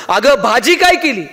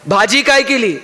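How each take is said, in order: First: Slow, drawn-out call of "भाजी काय केली", "काय" stretched and pushed; a half-hearted mock yell, slowly; shouted into the ear. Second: Said in the usual way. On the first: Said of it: "जोरात कानात ओरडला". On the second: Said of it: "हॉलमध्ये गेला".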